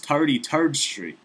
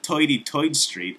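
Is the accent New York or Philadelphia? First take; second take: Philadelphia; New York. First: A Philadelphia accent, with the r sounds kept. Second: A New York accent, with the r sounds dropped. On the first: This is how locals actually talk. The speaker calls it right. "We got a little letter called R in Philly" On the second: This is how movies wrongly portray locals. The speaker calls it wrong. "It's not"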